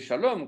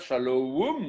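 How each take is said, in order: First: The second vowel is a plain O sound. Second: The second vowel glides into a W sound. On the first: The speaker calls it right. "c'est shalom" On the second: The speaker calls it wrong. "ça ne se dit pas shalom"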